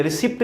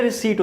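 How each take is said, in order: First: रिसिप्ट said ri-SIPT with the p sounded; common mispronunciation. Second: रिसीट said ri-SEET with no p sound; रिसीट, p kept silent; correct pronunciation. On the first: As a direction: demo the wrong रिसिप्ट, pronouncing the p. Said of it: "रिसिप्ट नहीं होती". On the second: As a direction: say रिसीट with a silent p, ending in a long ee and t. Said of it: "इसकी pronunciation पहले तो क्या होती है". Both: Shown as a demonstration.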